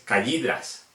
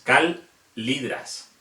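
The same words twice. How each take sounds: First: Calidras with the ll said like y, kaya; wrong LL. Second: Calidras with a long held L, very slow; double L. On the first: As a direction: say calidras as ka-yi-dras. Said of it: "no es calidras". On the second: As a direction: draw out calidras as kal-li-dras, very slowly. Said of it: "es calidras". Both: Shown as a demonstration.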